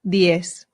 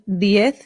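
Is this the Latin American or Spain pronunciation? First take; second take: Latin American; Spain. First: It is said with a Latin American accent. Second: It is said with a Spain accent. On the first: "the Latin American way" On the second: "pronounced the Spanish way"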